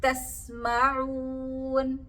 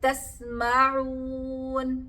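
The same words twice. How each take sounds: No difference in how they are said.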